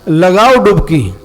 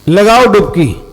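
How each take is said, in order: The two takes are said the same way.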